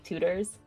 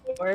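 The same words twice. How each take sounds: First: The middle T is a soft D. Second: The middle T is a crisp T.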